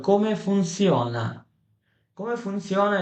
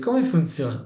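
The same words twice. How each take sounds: First: Very slow, stretched-out Italian question; slowly enunciated classroom example; slow teaching model. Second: Said in the usual way. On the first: Shown as a demonstration. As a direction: draw out each word for learners. Teacher models phrase slowly for learners.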